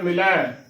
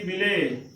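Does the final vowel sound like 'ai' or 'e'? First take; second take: ai; e. First: The word ends in an ai vowel. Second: The word ends in a plain e vowel. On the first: The speaker calls it right. "ਅਗਲਾ ਜੋ ਸ਼ਬਦ ਹੈ" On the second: The speaker calls it wrong. "ਇਸ ਦਾ ਗਲਤ ਉਚਾਰਨ ਹੈ"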